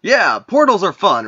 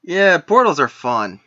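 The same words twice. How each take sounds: First: Upbeat and breezy; cheerful. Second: Dry sarcastic. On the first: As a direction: say it brightly. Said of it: "He says". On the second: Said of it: "repeat of line 15". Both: Acted.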